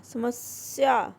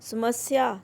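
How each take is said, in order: First: समस्या said slowly as "समस्या", with a clear half स; समस्या pronounced correctly and slowly for the class; correct pronunciation. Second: समस्या said as "सुमस्या", with a u sound in the first syllable; समस्या mispronounced "सुमस्या" as a wrong example; wrong pronunciation. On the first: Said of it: "आधा स". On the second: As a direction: read समस्या as सुमस्या to show the mistake. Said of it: "समस्या नहीं". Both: Shown as a demonstration.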